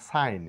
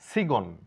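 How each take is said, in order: First: No g sound is heard before the n. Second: A g sound is heard before the n. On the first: The speaker calls it right. "বলবো সাইন" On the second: The speaker calls it wrong. "সিগন না বলে"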